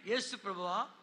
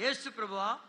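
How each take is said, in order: First: Said in the usual way. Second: Said out loudly for all to hear; prayer line repeated loudly for the crowd. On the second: Shown as a demonstration. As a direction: call out the name boldly. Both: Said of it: "బిగ్గరగా చెప్పాలి".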